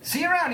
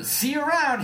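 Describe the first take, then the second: First: High, breezy farewell; announced. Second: Announced. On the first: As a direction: toss it off cheerfully as he steps out. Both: Acted. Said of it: "he announced".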